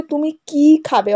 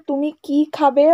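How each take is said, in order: First: কি stressed, slow, falling to the end. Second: খাবে carried up with a rising end; yes-no question tune. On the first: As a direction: ask which dish by hitting কি. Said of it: "অর্থাৎ তুমি কি খাবে?". (কি-তে জোর দিয়ে ধীরে জিজ্ঞেস) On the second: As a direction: ask whether they'll eat, rising on খাবে. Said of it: "অর্থাৎ তুমি খাবে কি না". (খাবে-তে জোর, প্রশ্নের সুর ওপরে ওঠে) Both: Shown as a demonstration.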